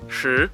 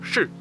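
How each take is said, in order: First: The pitch rises across the syllable. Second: The pitch falls sharply on the syllable. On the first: It can mean time. "in the second, the rising tone" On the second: It can mean to be. "in the fourth, so the falling tone"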